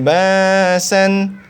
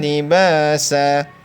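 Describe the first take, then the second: First: The word ends with an n sound. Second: The word ends with a long a vowel. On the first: The reading continues. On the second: The reading stops here.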